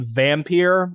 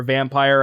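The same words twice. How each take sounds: First: Vampire said "vam-PEER"; second syllable of Vampire rhymes with "here"; French-style pronunciation. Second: Said in the usual way. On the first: Shown as a demonstration. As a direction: say Vampire with an "-eer" ending, like peer. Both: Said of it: "however you wanna pronounce it".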